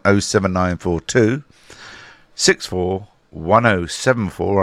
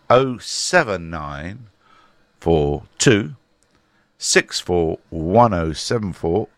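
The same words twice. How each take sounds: First: The number is read at normal speed. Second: The number is read slowly.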